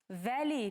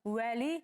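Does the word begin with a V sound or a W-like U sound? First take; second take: V sound; U sound. First: The word begins with a V sound. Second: The word begins with a U-like glide sound. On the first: This is how it is written. The speaker calls it wrong. "Вали пишем" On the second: This is how it is actually said. The speaker calls it right. "уали говорим"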